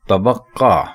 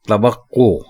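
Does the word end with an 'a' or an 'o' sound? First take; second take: a; o. First: The word ends with an 'a' vowel. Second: The word ends with an 'o' vowel. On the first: The speaker calls it wrong. "काफ के ऊपर जबर लगाकर इसको बोलना गलत है" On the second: The speaker calls it right. "काफ के ऊपर पेश लगाकर बोलना इसको दुरुस्त है"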